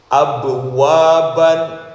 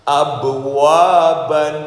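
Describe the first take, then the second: Both takes have the same delivery.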